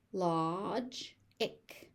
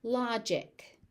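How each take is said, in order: First: "Logic" as lodge, pause, ick; syllable by syllable. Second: Said in the usual way. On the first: Shown as a demonstration. Teacher sounding out "Logic" for learners, syllable by syllable. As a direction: split "Logic" into two beats.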